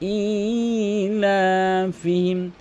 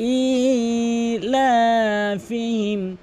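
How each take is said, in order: First: The first vowel is lengthened. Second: The first vowel is lengthened.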